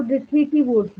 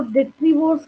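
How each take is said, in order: First: "detritivores" said as de-tri-ti-vores; "detritivores" with an extra "ti" in the middle; longer pronunciation. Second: "detrivores" said as de-tri-vores; "detrivores" with the middle syllable dropped; shorter pronunciation. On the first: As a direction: say "detritivores" in four beats. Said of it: "कई लोग इसको detritivores भी कहते हैं". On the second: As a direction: say "detrivores" in three beats, no extra "ti". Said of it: "कई लोग इसको detrivores कहते हैं". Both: Shown as a demonstration.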